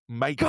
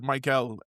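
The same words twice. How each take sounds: First: The name is said with a Spanish pronunciation. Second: The name is said like English Michael. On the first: The speaker calls it right. "and it's Michael" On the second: The speaker calls it wrong. "you definitely said Michael"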